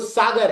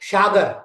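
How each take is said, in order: First: The word begins with an 's' sound. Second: The word begins with an 'sh' sound. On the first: The speaker calls it right. "जबकि वो सागर है" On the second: The speaker calls it wrong. "हमने साधुओं के मुख से भी सुना"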